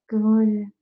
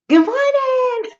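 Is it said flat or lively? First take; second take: flat; lively. First: It is mumbled flatly, barely moving the mouth. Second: It is said brightly with lively energy.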